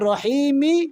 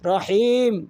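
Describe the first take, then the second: First: The word ends with an added short vowel. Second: The word ends on the final consonant. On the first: The reciter joins it to the next word. "মিলাই পড়লে রহিমি মালিকি" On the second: The reciter pauses after this word. "থামলে রহিম"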